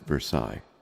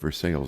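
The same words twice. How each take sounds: First: The name is said with a French pronunciation. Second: The name is said with an anglicized pronunciation. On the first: This is how the French place is named. "It's pronounced Versailles in France" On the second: This is how the Ohio town is named locally. "but Versailles, Ohio"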